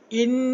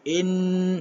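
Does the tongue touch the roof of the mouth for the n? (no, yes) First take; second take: yes; no. First: The n is made with the tongue raised. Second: The n is made without the tongue raised. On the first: The speaker calls it right. "di le langit" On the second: The speaker calls it wrong.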